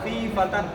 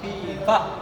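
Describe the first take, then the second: First: The last word ends in a t sound plus n. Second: The last word ends softly in an h sound. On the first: The speaker calls it wrong. "ऐसा करके हम यहाँ पर सांस नहीं तोड़ सकते हैं" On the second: The speaker calls it right. "लेकिन अब मैं सांस यही तोड़ रहा हूँ"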